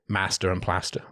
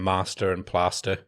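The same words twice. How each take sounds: First: The words are said in a plain regional accent. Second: The words are said in a posh-sounding accent. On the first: This is how the speaker talked growing up. "I used to say master and plaster when I was growing up" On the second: This is the way the speaker chose to adopt later. "it made me sound intellectually superior to everyone"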